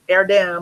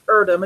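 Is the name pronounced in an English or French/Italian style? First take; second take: French/Italian; English. First: The name is said in a French or Italian style. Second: The name is said in an English style. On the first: The speaker calls it wrong. "It's not Italian or French, so it's not Er- Erdem" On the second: The speaker calls it right. "I think it's Erdem. It's from England"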